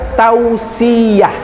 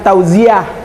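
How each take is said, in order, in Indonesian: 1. Konsonan di tengah itu bunyi 's'. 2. Konsonan di tengah itu bunyi 'z'. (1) "Yang benar adalah tausiah" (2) "bukan tauziah"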